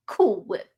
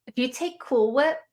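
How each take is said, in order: First: A playful put-on tipsy voice, barely shifted; mock tipsy. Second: Said in the usual way. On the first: Joking to stream viewers that the cold whip tastes boozy, in mock tipsy voice. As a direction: drawl it like you're slightly buzzed, as a joke. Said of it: "I'm totally sober, by the way".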